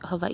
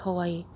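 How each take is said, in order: First: The W is said the Hawaiian way. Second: The W is said the usual English way. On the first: This is the traditional local pronunciation. "the correct way to pronounce the W's in, in Hawaiian is like Hawaii" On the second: This is how most people say it. "but people call it Hawaii"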